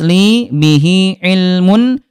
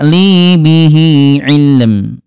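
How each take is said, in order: First: The last word ends with the -un ending. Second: The last word ends on two consonants.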